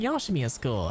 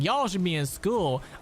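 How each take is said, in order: First: It is said calmly, without yelling. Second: It is yelled loudly and angrily.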